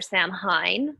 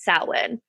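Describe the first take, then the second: First: It is said closely following its written letters. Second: It is said unlike its written letters. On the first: The speaker calls it wrong. "you would think it would be pronounced Samhain" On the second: The speaker calls it right. "because it's Celtic or Gaelic, it's pronounced Samhain"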